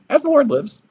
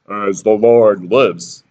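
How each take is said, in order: First: Much higher, thin squeak; a mousy prophet squeaking his vow; squeaky high voice. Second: Said in the usual way. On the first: Shown as a demonstration. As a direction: pipe it up high and timid. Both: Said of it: "He could have had a voice like".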